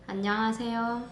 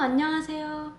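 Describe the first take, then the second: First: It is said in a plain, neutral way. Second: It is said in a warmer, friendlier voice.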